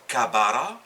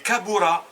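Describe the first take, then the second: First: The middle vowel is a. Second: The middle vowel is u. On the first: The speaker calls it wrong. "on ne dit pas kabara" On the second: The speaker calls it right. "A ou A"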